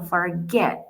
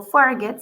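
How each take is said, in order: First: "forget" stressed as for-GET; stress on final syllable. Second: "forget" wrongly stressed as FOR-get; stress on first syllable. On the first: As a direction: lean slowly on the "get" in "forget". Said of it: "la acentuación está al final". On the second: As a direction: punch the "for" in "forget", letting "get" drop. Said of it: "la acentuación está al final. Yo no digo". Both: Shown as a demonstration.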